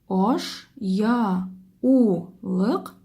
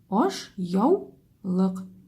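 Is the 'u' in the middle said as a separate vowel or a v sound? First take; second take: separate vowel; v sound. First: The u is a separate vowel syllable. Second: The u sounds like v, joined to ya. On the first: The speaker calls it wrong. "А если бы мы читали это слово вот так" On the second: The speaker calls it right. "мы у произносим как согласную в"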